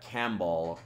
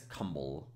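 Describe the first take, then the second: First: The first vowel sounds like 'a' in cat. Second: The first vowel sounds like 'u' in cup. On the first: The speaker calls it wrong. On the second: The speaker calls it right.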